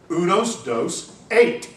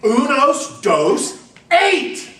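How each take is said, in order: First: A tourist spelling out the number in mock Spanish; ugly American tourist. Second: Tourist bellowing the numbers much higher and louder; shouting louder and slower. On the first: Tourist to wait staff, slightly raised mock Spanish. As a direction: tourist tries his bad Spanish on the waiter. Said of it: "you just say it louder and slower". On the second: Retold or imitated. Tourist to waiter, shouting slowly and much louder. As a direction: yell it slowly, as if volume helps. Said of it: "say it louder and slower and louder".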